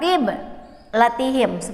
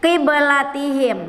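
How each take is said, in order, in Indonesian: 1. Ada jeda setelah suku kata pertama. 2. Kata itu mengalir terus tanpa jeda. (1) "bukan qib latihim, bukan seperti itu" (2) "Kita tidak berhenti membacanya ... huruf ba-nya dipantulkan"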